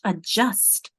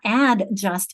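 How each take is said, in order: First: The first vowel is a reduced 'uh' sound. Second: The first vowel is a full 'a' sound. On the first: The speaker calls it right. "that a becomes uh" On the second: The speaker calls it wrong. "it's not add just"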